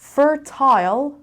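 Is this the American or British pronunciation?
British. It is said with a British accent. "fertile is British"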